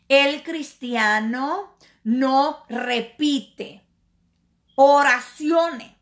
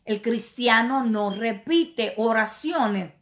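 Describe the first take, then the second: First: "El cristiano no repite" drawn out very slowly, "oraciones" punched louder; slow emphatic repeat. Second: Said in the usual way. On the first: Shown as a demonstration. Preacher drilling his point into the congregation, slow and emphatic. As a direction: spell out each word, then hit "oraciones" hard.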